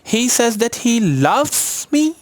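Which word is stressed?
loves. The stress falls on the word loves. What he feels is love, not just friendship. "वो जो करता है वो प्यार है"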